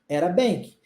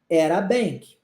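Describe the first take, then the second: Both takes have the same delivery.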